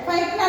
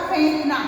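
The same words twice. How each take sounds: First: फेंकना as 'phaink-na', with ai; wrong vowel. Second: फेंकना as 'phenk-na', with e; correct vowel. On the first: Teacher rejects the wrong form, ai-vowel फेंकना. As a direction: widen the first vowel of फेंकना to ai. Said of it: "फेंकना नहीं होगा". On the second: Teacher confirms the right word, e-vowel फेंकना. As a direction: use a plain long e in फेंकना. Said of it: "शब्द होगा फेंकना". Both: Shown as a demonstration.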